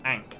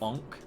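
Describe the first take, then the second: First: The vowel sounds like the one in cat. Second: The vowel sounds like the one in cot. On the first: "some people pronounce "ank"" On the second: "as "onk,""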